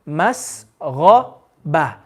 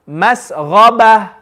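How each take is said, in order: First: It is said slowly, broken down. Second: It is said quickly and smoothly.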